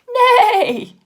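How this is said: The neigh is loud and bold.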